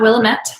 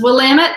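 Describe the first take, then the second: First: The word's ending does not rhyme with 'damn it'. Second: The word's ending rhymes with 'damn it'. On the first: The speaker calls it wrong. "not Willamette" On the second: The speaker calls it right. "it's Willamette, ... it's Willamette, damn it"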